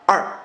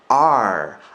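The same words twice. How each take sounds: First: The tongue jerks back abruptly for the R. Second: The tongue rolls back smoothly for the R. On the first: The speaker calls it wrong. "이거는 갔다가 혀가 갈려다 말고 확 뒤로 당긴 소리겠죠" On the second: The speaker calls it right. "앞으로 가면서 당기셔야 됩니다. 그러니까 R, R, R 하고 굴리셔야 됩니다"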